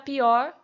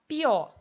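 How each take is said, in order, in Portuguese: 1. A palavra termina com som de 'r'. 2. A palavra termina na vogal, sem 'r'.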